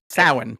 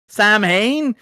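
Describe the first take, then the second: First: It is said unlike the English words Sam Hain. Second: It is said like the English words Sam Hain. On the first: The speaker calls it right. "to be clear, is how you pronounce that" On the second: The speaker calls it wrong. "Everybody's favorite villain, Samuel Hain"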